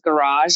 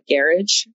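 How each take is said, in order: First: It is pronounced the American way. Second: It is pronounced the British way. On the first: This is the form people here expect. The speaker calls it right. "I would forget that it's garage" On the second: This is the form that sounds odd to locals. The speaker calls it wrong. "not garage"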